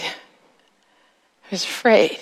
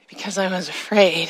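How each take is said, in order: First: "afraid" drawn out very slowly, voice thinned; slow fearful repeat. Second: Said in the usual way. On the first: Shown as a demonstration. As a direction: linger on "afraid" like a frightened child.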